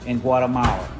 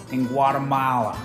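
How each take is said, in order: Both takes have the same delivery.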